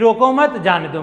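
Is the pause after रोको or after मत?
after मत. There is a pause after मत.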